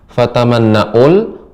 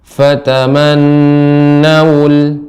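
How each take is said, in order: First: A glottal stop comes before the final syllable. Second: A rounded w sound comes before the final syllable. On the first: The speaker calls it wrong. "jangan fatamanna'ul, bukan hamzah" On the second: The speaker calls it right. "tapi waw ... dimonyongkan bibirnya"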